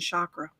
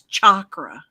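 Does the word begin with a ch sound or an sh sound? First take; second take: sh; ch. First: The word begins with an sh sound. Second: The word begins with a ch sound. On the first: This is the common American way of saying it. The speaker calls it wrong. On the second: This is the traditional original Sanskrit way. The speaker calls it right. "like chocolate. It's a cha cha cha sound"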